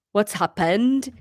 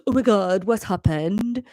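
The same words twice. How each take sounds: First: Slow, lightly Welsh questioning lilt; Welsh accent. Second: Lightly voiced Welsh teenager; teenage Welsh. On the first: Acted. Son Owen interrupts from the doorway, Welsh accent. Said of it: "he is going to be Welsh". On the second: Teenage son in the doorway sounds fearful, teenage Welsh. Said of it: "like, teenage Welsh".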